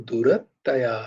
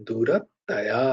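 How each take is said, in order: The two takes are said the same way.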